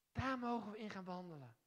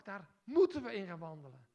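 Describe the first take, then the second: First: Said in the usual way. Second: Moeten punched hard and loud; moeten, not mogen, driven home loud; stress on moeten. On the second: Shown as a demonstration. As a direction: hit the word moeten as an obligation. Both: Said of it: "Sterker nog".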